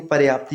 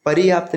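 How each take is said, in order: First: पर्याप्त said crisply as पर्याप्त, pəryaapt, no extra vowel; the correct पर्याप्त, falling; correct form. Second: पर्याप्त said as परियाप्त with an extra i; the incorrect पर्याप्त, pər-i-yaapt; wrong form. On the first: (सही उच्चारण, पर्याप्त साफ़ बोलें) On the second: (गलत उच्चारण, पर्याप्त को परियाप्त बोलें) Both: Shown as a demonstration. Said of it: "पर्याप्त नहीं".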